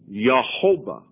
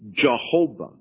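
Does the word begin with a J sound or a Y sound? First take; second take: Y; J. First: The word begins with a soft Y sound. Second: The word begins with a hard J sound. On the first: "the soft J sound" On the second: "If he had the harder J sound"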